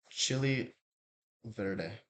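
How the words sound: It is said with an English accent. "the other one's gonna be the English version"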